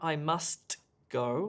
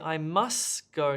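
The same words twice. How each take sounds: First: The t in 'must' is clearly pronounced. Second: The t in 'must' is dropped. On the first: "not I must go" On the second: "Deleting where I say I must go"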